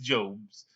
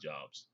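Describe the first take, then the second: First: It sounds like the biblical name 'Job's'. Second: It sounds like the everyday plural 'jobs'. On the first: It refers to the figure in the Bible. The speaker calls it right. "it's Jobs" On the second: It means work or employment. The speaker calls it wrong. "looks like Jobs. It's not Jobs"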